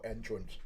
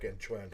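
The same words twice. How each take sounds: First: The stress is on the first syllable. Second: The stress is on the second syllable. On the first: The speaker calls it right. "but no, entrance" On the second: The speaker calls it wrong. "I almost pronounced that wrongly. It's like entrance"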